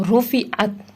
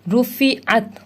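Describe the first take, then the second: The two takes are said the same way.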